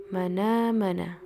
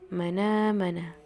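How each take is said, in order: First: The n links straight into the vowel. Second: The n links straight into the vowel.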